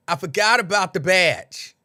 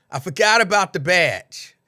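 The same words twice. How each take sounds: The two takes are said the same way.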